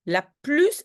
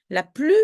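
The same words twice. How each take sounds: First: "plus" with its final s pronounced; final S sounded. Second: "plus" with the final s silent. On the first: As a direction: say "plus" as "plüss", drawn out. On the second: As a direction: say "plus" as "plü", ending on the vowel. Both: Shown as a demonstration. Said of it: "ça c'est plus".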